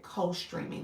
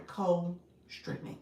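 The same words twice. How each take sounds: First: Said in the usual way. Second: "co-streaming" said slowly, CO held apart from STREAMING; slow, clarifying "co-streaming" in two separate parts; careful enunciation. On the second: Shown as a demonstration. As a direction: spell out "co-streaming" by sound, slowly, CO then STREAMING. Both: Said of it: "my Chicago accent got in the way".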